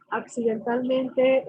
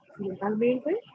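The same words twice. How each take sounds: First: Accidentalmente said slowly, syllable by syllable; slow emphasis. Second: Said in the usual way. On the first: Shown as a demonstration. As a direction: lean on accidentalmente, drawn out. (accidentalmente, lento y marcado)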